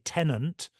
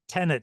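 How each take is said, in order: First: It ends as ten-ant, with an n sound. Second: It ends plainly as ten-et, no n sound. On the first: The speaker calls it wrong. "I'm tired of hearing people say tenant instead of tenet" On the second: The speaker calls it right. "I'm going to say t- tenet here"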